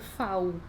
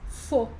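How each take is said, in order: First: The vowel is an 'au' glide. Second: The vowel is a pure 'o' sound. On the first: The speaker calls it wrong. "eu não vou ler" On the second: The speaker calls it right. "Faz som de O"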